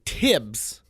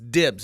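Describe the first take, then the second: First: The word begins with a T sound. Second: The word begins with a D sound. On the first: The speaker calls it wrong. "I got Tibbs on that" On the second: The speaker calls it right. "Do you mean dibs? It's dibs"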